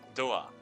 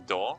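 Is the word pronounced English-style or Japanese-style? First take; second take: Japanese-style; English-style. First: It is said with a Japanese pronunciation. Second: It is said with an English pronunciation. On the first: This is how the borrowed word sounds. "It's going to be doa" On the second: This is how the original word sounds. "The door is not going to be door"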